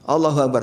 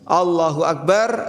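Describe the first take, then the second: First: The phrase is said very quickly. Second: The phrase is said slowly and deliberately. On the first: The prayer is rushed like a hypocrite's. The speaker calls it wrong. "terlalu cepat, nutul nutul nutul" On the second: The prayer is done seriously. The speaker calls it right. "Kalau sholat yang serius"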